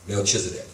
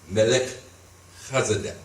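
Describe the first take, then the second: First: The name has an English pronunciation. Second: The name has a Hebrew pronunciation. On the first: "in English, we say Melchizedek" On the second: "the name in Hebrew is"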